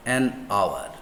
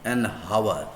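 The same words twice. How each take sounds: First: "hour" begun on the vowel, no H; silent H. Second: "hour" said with a breathed H at the start; sounded H. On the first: Teacher showing students the vowel start, "hour" with silent H. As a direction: say "hour" without any H sound. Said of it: "a silent H". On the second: Teacher showing what it is not, "hour" with H sounded. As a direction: wrongly pronounce the H in "hour". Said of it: "It's not about". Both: Shown as a demonstration.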